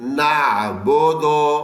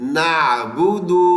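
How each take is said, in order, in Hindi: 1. 'b' के बाद के स्वर 'o' ध्वनियाँ हैं। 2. 'b' के बाद के स्वर 'u' ध्वनियाँ हैं।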